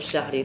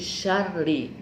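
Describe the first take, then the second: First: The middle consonant is a breathy throat h. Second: The middle consonant is a doubled rolled r. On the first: The speaker calls it wrong. "Kalau syahri itu ha" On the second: The speaker calls it right. "ini syarri ra"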